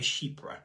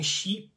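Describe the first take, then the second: First: It is said in an easier, anglicized pronunciation. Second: It is said in an approximate French-style pronunciation. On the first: This is the easier, colloquial way to say it. "we tend to kind of colloquially more say chypre because it's a little bit easier" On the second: This is technically how French speakers say it. "if you say it in French, ... you're almost kind of saying sheep"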